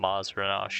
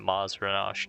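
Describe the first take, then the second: First: The middle sounds like 'zra-nash'. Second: The middle sounds like 'zra-nash'.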